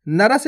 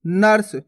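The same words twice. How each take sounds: First: नरस in two syllables, "na-ras"; wrong full R. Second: नर्स as one syllable, "nars"; no vowel between r and s in नर्स; half R. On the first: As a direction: sound a whole "ra" inside नरस. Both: Shown as a demonstration. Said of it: "नरस नहीं पढ़ना".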